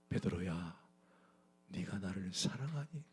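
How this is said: It is said in a gentle, loving tone.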